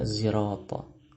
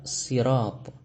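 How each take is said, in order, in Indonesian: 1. Konsonan itu diawali dengan bunyi z yang bersuara. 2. Konsonan itu diawali dengan bunyi s yang ringan dan biasa. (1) "menggantinya dengan zai" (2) "menggunakan huruf sin"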